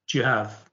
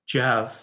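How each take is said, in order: Both takes have the same delivery.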